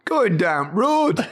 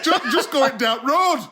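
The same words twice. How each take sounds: First: Slow Yorkshire copy, laughing; Geoffrey Boycott Yorkshire. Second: Slow Yorkshire, going down road; drawn-out Yorkshire, laughing; Yorkshire accent. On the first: Retold or imitated. Host copies [name] like a Yorkshire cricketer, slow Yorkshire. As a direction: imitate a Yorkshire cricketer slowly. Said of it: "Sound like Geoffrey Boycott". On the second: Shown as a demonstration. [name] repeats his Yorkshire line, slow Yorkshire accent.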